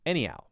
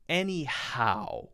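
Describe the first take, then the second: First: The H sound is soft and blended, barely there. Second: The H sound in the middle is clearly pronounced. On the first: "soft H that it's that's so it's not even there really" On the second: "it's not like anyhow with a clear H sound"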